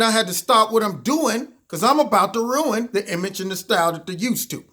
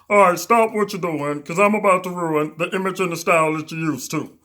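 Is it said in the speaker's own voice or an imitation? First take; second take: own voice; imitation. First: It is said in the speaker's own voice. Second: It is said imitating Humpty's voice.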